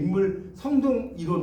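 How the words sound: The break comes after the first two syllables. It splits the term in the wrong place, changing its meaning. The speaker calls it wrong.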